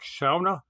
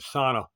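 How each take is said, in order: First: It is said in a Scandinavian-sounding way. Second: It is said in an ordinary, familiar way. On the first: "that sounds like you'd pronounce it if you were uh, like from Scandinavia somewhere" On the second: "I pronounce it sauna"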